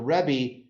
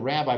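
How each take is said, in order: First: It is said with a Yiddish pronunciation. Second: It is said with a plain English pronunciation. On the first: "with this Yiddish inflection has a different resonance to it" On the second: It names an ordinary rabbi. "not the rabbi"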